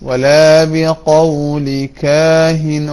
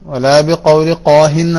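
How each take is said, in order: First: The last word starts with a plain k. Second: The last word starts with a deep throat q. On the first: The speaker calls it right. "ഒന്ന് ഖ മറ്റൊന്ന് ക" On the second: The speaker calls it wrong. "ആവരുത്"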